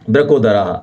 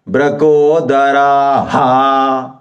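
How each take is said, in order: First: The ending is only a faint puff of breath. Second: The ending is voiced as a full 'ha' syllable. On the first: This is the traditional way to say it. The speaker calls it right. "इतनी सी एक वायु उठे बस" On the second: This is how many people say it nowadays. The speaker calls it wrong. "ऐसा करते हैं लोग आजकल"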